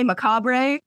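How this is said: British pronunciation, with a final 'ruh' sound. "I have British friends that say macabre"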